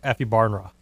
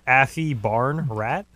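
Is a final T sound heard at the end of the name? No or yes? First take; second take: no; yes. First: The name ends without any T sound. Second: The name ends with a clear T sound. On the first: "maybe the T isn't pronounced, so it's like" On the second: "Is that actually how you pronounce it?"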